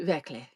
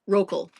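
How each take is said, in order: First: The surname is said the German way. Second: The surname is said the American way. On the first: "if we were in Germany, it would be" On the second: "That's how we"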